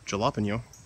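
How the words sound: It is said in a mock Wisconsin accent.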